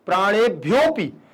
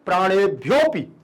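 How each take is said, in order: First: The 'a' of 'api' is hidden in the join. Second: The same.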